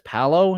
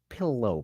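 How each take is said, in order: First: The first vowel sounds like 'pal'. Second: The first vowel sounds like 'pill'. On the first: This is how a family member says it. "My brother says palo" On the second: This is the speaker's own way of saying it. "I guess I do say pillow"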